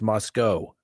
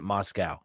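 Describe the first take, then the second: First: The last syllable rhymes with 'go'. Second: The last syllable rhymes with 'cow'. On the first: "I guess no W. The W is silent" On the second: "I pronounce it Moscow. It's spelled like Moscow"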